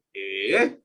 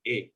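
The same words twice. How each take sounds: First: Low "Eh" that swings up, meaning no; disagreeing "Eh" from low in the voice; negating "eh". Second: Short "Eh" meaning yes; quick yes-like "Eh"; affirming "eh". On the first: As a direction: start "Eh" low, as a doubting no. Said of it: "Kalau enggak tuh". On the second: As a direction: say "Eh" briefly as agreement. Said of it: "untuk bilang iya itu". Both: Shown as a demonstration.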